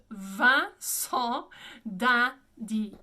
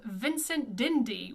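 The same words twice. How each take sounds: First: Slow, emphatic French Vincent d'Indy; French pronunciation. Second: Vincent d'Indy with English n's; English-style Vincent d'Indy; anglicized pronunciation. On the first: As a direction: Vincent d'Indy with nasal vowels, silent t. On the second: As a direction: say Vincent d'Indy as "VIN-sent DIN-dee". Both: Shown as a demonstration. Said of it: "which is".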